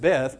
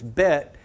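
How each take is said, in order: First: The word ends with a th sound. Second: The word ends with a t sound. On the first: This is the usual English pronunciation. "we pronounce it beth" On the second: This is the Hebrew pronunciation. "it's bet in Hebrew"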